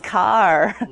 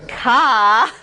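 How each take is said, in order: First: The final R is clearly pronounced. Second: The final R is dropped, Boston style. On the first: The speaker calls it right. "There actually would be an R there" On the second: The speaker calls it wrong. "it's not ka"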